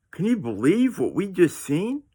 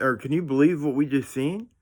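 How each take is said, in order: First: Higher, altered voice of stunned disbelief. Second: Said in the usual way. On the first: Retold or imitated. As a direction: say it like you still can't believe it. Repeats question in altered voice.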